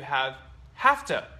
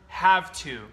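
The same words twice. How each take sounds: First: The two words are linked together. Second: The two words are said separately.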